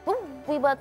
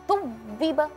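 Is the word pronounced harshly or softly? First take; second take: harshly; harshly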